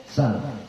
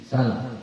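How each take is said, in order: The two takes are said the same way.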